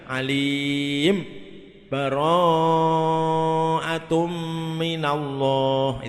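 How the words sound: A brief silent break follows 'mim' before the next word. "itu namanya saktah"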